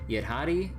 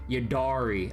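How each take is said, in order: First: The stress falls on the final part, hari. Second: The stress falls on the middle syllable, da. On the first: "they kind of emphasize the Hari part" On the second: "like duh, you know, and emphasize that"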